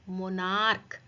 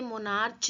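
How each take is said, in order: First: The final sound is a 'k' sound. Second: The final sound is a 'ch' sound. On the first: The speaker calls it right. "तो यहाँ सी एच का pronunciation क्या हो रहा है, क।" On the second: The speaker calls it wrong. "इसे मोनार्च नहीं बोलेंगे"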